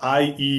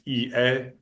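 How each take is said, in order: First: The letters are named the English way. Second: The letters are named the Spanish way. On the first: "I'm using the English pronunciation here" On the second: "how you say it in Spanish"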